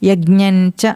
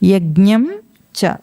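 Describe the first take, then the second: First: The final nasal blends into 'cha'. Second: The final nasal is fully pronounced before 'cha'. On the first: The speaker calls it wrong. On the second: The speaker calls it right.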